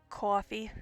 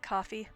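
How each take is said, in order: First: The first vowel is an exaggerated drawn-out 'aw'. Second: The first vowel is said in a plain way. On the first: "does the A W with everything" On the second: "instead of"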